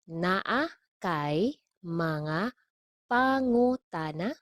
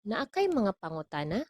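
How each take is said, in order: First: Very slow, separated words, rising at the end; slow model. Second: Said in the usual way. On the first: Shown as a demonstration. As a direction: spell out "Naa kay mga pangutana" chunk by chunk. Teacher models phrase slowly, then normally.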